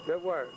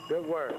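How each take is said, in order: Both takes have the same delivery.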